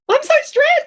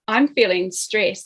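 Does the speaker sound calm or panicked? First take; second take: panicked; calm. First: It is said in an upset, panicked way. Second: It is said in a calm, even way.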